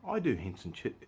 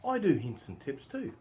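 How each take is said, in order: First: Said in the usual way. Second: Slower, higher and louder, with mock pride; tongue in cheek. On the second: Shown as a demonstration. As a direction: deliver it like a proud boast you don't believe. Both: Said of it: "put my tongue in my cheek".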